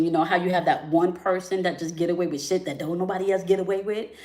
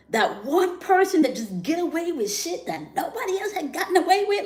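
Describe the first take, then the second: First: Said in the usual way. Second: High-pitched disbelieving repeat; much higher emphatic repeat. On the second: Real, not acted. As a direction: repeat it up high, pitch climbing to the top of her range.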